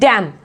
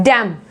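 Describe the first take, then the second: Both takes have the same delivery.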